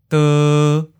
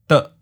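First: The pitch stays mid and level. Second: The syllable is cut short at mid pitch. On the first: "Seventh tone, mid flat" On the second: "Fourth tone, mid stop"

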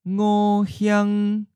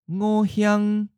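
First: It is said slowly and carefully. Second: It is said at a natural, normal speed. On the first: "and then slowly" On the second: "First natural speed"

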